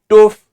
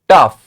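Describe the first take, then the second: First: The vowel is a long 'oo' sound. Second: The vowel is a short 'uh' sound. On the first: The speaker calls it wrong. "Not toof" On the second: The speaker calls it right. "we have the sound of uff, not oof, but uff"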